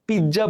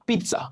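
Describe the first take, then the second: First: পিৎজা with a j sound, "pid-ja"; common mispronunciation. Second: পিৎজা with a "ts" sound, "pit-sa"; sharp t before the s in পিৎজা; correct pronunciation. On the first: Teacher showing another way we say it, mispronounced. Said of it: "পিৎজা বলি". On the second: Teacher giving learners the right form, correctly pronounced. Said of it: "এর উচ্চারণ হবে". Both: Shown as a demonstration.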